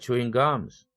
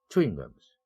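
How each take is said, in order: First: The main stress falls on the second word. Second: The main stress falls on the first word. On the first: People are chewing gum right now. "껌이 일강세를 가져갔고 chewing은 그래서 같은 내용어지만 이 동사는 이강세로 낮춰줬습니다" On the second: The things are pieces of gum. "chewing이라는 내용어에 일강세를 주고 뒤에 있는 내용어는 삼강세로 완전히 낮춰줍니다"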